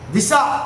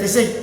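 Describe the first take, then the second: First: The word ends in an 'aa' vowel. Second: The word ends in an 'ai' vowel. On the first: The speaker calls it right. "இது வந்து உண்மையான சொல்" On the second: The speaker calls it wrong. "திசை அல்ல"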